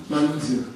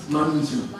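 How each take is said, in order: Both takes have the same delivery.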